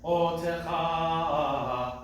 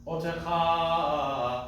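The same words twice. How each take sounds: First: Sung, "Otecha" very slow, extra accent on the O; sung with meteg. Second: "otecha" spoken, no extra accent on the O; "otecha" said plainly, O light. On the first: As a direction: chant "Otecha" leaning on the O. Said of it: "as opposed to otecha". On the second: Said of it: "as opposed to". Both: Shown as a demonstration.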